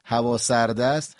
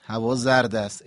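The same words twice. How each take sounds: First: هوا سرد است with a distinct s in سرد; s sound. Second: هوا زرد است with a distinct z in زرد. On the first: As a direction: contrast it by the s in سرد. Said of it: "اگر به جای سین ز بگیم". (سرد با حرف سین) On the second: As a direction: swap the s for a buzzed z in زرد. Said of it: "به جای سین ز بگیم". (زرد با حرف ز) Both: Shown as a demonstration.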